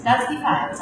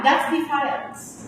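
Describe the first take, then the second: First: Said in the usual way. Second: That's defiance said slowly, each word weighted; slow emphatic. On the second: Shown as a demonstration. Teacher drives home her point to students: slow, weighted That's defiance. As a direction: lean hard into That's defiance, drawn out. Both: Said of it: "You know why?".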